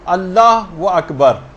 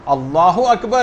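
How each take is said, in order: First: A separate 'wa' sound comes before Akbar. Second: Allah ends in 'u' and links into Akbar. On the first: The speaker calls it wrong. "बहुत सारे गलत तलफ़्फ़ुज़" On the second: The speaker calls it right. "अल्लाहु अकबर है"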